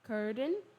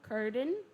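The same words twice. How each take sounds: Both takes have the same delivery.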